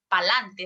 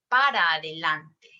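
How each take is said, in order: First: The phrase is shortened to two syllables. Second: The phrase is said in full. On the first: The speaker calls it wrong. "no es pa'lante" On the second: The speaker calls it right. "es para adelante"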